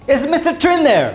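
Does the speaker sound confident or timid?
confident. It is said firmly and confidently, like a boss. The caller seems to be someone important. The speaker calls it right. "You gotta talk like the boss"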